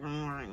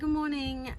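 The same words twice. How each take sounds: First: It is said in a grudging, unwilling way. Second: It is said in a bright, cheerful way.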